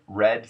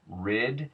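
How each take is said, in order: First: The vowel sounds like a plain 'eh'. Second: The vowel shifts toward an 'i' sound. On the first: "the red red sound eh" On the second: "becoming I"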